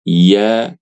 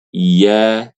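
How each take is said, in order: No difference in how they are said.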